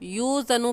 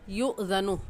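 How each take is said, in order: First: The word flows smoothly with no throat catch. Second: A sharp catch in the throat splits the word.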